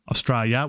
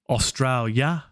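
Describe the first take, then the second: First: Even more sounds are dropped from the word. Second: Some sounds are dropped from the word. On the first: "or even Australia" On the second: "We say Australia"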